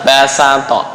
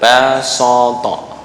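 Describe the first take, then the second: First: The s sound is plain and light. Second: The s sound is emphatic and heavy. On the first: The speaker calls it right. "adalah basato" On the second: The speaker calls it wrong.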